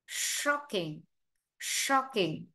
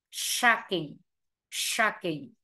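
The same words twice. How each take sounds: First: "shocking" with a rounded British O; short O. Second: "shocking" opened to "SHAHK-ing"; long A. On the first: Teacher drilling both readings, "shocking" with short O. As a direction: say "shocking" as "SHOK-ing". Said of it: "vừa phiên âm thành O". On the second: Teacher drilling both readings, "shocking" with long ah. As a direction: say "shocking" with an American ah. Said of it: "vừa phiên âm thành A dài". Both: Shown as a demonstration.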